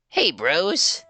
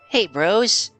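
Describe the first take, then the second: First: The character voice is pitched lower. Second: The character voice is pitched even higher. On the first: The speaker calls it wrong. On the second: The speaker calls it right.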